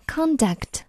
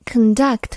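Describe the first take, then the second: First: "conduct" as a noun, stressed on CON; stress on first syllable. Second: "conduct" as a verb, stressed on DUCT; stress on second syllable. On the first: Teacher contrasting noun with verb, "conduct" stressed on CON. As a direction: slowly say "conduct" with a strong CON. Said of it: "重音就在首字母前面". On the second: Teacher introducing the verb to learners, "conduct" stressed on DUCT. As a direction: say "conduct" with weak first syllable, strong DUCT. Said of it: "但是它做名词的时候读音就不一样了". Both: Shown as a demonstration.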